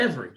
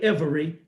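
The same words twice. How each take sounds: First: The word is said with two syllables. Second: The word is said with three syllables. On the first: This is how it sounds in normal speech. "Two syllables, not three" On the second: This is how it sounds when read aloud. "they don't say every"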